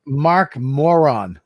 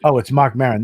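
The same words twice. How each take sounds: First: Moron said slowly as MOR-on, reading off a phone; drawn-out Mark Moron, sounding out the contact name; slow MOR-on with a clear OR vowel; misreading the name. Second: Maron said as MAIR-un, penny dropping; oh of sudden realisation, Maron said MAIR-un; realising the name. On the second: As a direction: Mark Maron corrected with a MAIR vowel. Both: Real, not acted. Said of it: "I wrote Mark Moron instead of Maron".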